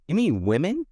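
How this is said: It is said in an exaggerated put-on voice.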